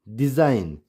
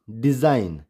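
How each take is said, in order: Both takes have the same delivery.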